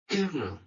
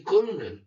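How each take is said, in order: First: The word is not pronounced as it is spelled. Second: The word is pronounced as it is spelled. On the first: This is the model pronunciation heard without seeing the word. The speaker calls it right. "if students only hear colonel" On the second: The written spelling has shaped how it is said. The speaker calls it wrong. "many students will say colonel, even though it differs from the model"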